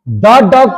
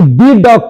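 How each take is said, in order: First: 'The' is said with a short 'thuh' vowel. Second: 'The' is said with a long 'thee' vowel. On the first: The speaker calls it right. "द dog पढ़ेंगे" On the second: The speaker calls it wrong. "दी dog पढ़ेंगे"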